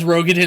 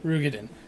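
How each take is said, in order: First: The first syllable has an 'oh' vowel. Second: The first syllable has an 'oo' vowel. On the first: "sometimes I'll pronounce it as uh, as Rogadin as well" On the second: "It's spelled Ro, but it's pronounced Ru"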